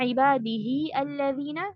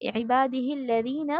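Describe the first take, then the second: First: A separate glottal stop begins alladhina. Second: The hi runs straight into the lam. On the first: The speaker calls it wrong. "ऐसे नहीं पढ़ना है" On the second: The speaker calls it right. "आप सीधा ही के साथ लाम को जोड़ देंगे"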